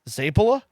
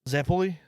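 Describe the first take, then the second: First: Said clipped, with many letters dropped. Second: Said in full, with every letter sounded. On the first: "you ignore literally most of the words, most of the letters of the word" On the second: "I just do it American"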